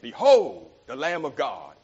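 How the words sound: It is said with lively excitement.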